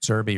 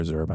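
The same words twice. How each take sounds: First: Zerbe ending in a "bee" sound; alternative pronunciation. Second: Zerbe ending in an "uh" sound; alternative pronunciation. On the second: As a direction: say Zerbe as ZUR-buh. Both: Shown as a demonstration. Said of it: "I don't know how it's pronounced".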